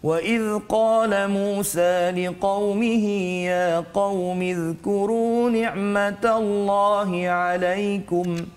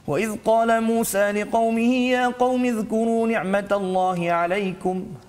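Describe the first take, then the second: First: It is recited at a moderate, measured pace. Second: It is recited very fast, with no melody. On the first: "tartil itu laju sedikit ya" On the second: "bacaan yang paling laju pula dipanggil sebagai al-hadar"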